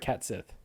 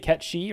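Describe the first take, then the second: First: The second part sounds like 'sith'. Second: The second part sounds like 'shee'.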